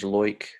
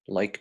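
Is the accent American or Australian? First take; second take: Australian; American. First: The vowel is said the Australian way. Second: The vowel is said the American way.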